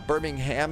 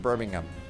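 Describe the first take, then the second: First: It is pronounced the American way. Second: It is pronounced the British way. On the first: The city in the United States is meant. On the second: The city in England is meant.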